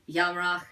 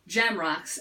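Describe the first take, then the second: First: The name is said with non-English sounds. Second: The name is said with English sounds. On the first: "the way his father did" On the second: "that's anglicized"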